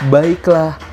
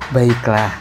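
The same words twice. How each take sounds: First: It is said at a medium pitch. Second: It is said at a low pitch.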